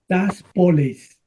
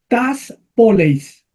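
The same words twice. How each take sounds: First: It is said at a faster pace. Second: It is said at a slower pace.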